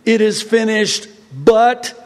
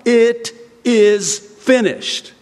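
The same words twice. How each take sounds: First: Higher, louder sarcastic quote of the false teaching, ending on "but"; mock quote with a dangling "but"; mocking wrong version. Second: "It is finished" slow and firm, each word weighted, falling to a close; slow, solemn "It is finished"; emphatic and final. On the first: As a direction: tack on "but" as if the job were unfinished. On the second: Shown as a demonstration. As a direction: declare "It is finished" slowly as settled truth.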